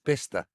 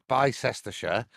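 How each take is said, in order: First: It is said shortened, with letters left silent. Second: It is read out with every spelled letter. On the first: The speaker calls it right. "It's it's just Bicester" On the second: The speaker calls it wrong. "you wouldn't say Bicester"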